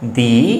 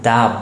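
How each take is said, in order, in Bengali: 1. 'the' এর স্বরধ্বনিটি 'ee' এর মতো শোনায়। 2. 'the' এর স্বরধ্বনিটি 'uh' এর মতো শোনায়। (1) "ও এর আগে দি হয়েছে" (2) "কনসোনেন্টের আগে আমরা শিখলাম দা হয়"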